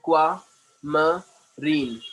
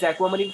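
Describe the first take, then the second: First: "aquamarine" very slowly, split into separate syllables. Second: Said in the usual way. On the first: Shown as a demonstration. Teacher models the word for a student, syllable by syllable. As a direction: cut "aquamarine" up with a gap after each syllable. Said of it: "syllable में cut करके बोलना". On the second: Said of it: "That is aquamarine four".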